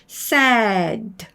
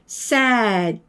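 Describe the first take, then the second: No difference in how they are said.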